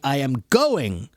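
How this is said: The stress is on the word going.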